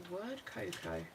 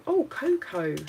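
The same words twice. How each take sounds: First: Said in the usual way. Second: Excited. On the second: Real, not acted. Delighted at finding cocoa sticker.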